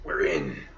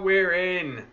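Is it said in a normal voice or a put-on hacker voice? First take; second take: hacker voice; normal. First: It is said in a put-on hacker voice. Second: It is said in a normal voice.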